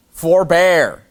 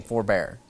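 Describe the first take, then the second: First: Louder, higher stern command. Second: Said in the usual way. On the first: Acted. King warning the prophet off, louder stern command. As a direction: forbid him sharply. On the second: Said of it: "He's saying".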